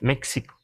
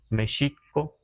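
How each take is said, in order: First: The x is sounded like ks. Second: The x is sounded like sh. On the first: This is how English speakers read the spelling. "porque pronuncian la X" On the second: This is the original Nahuatl value of the letter. "los nahuas decimos México"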